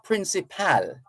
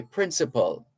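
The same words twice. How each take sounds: First: "principal" with a full "pal" as last syllable; wrong "principal". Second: "principal" with reduced last syllable, like hospital; closed-gap "principal". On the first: Host shows listeners what not to say, "principal" with full "pal". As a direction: say "principal" ending like the word pal. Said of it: "it's not principal, for sure". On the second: Host teaches listeners, "principal" with reduced ending. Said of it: "close that gap a bit and say principal". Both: Shown as a demonstration.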